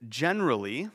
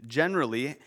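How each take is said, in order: Both takes have the same delivery.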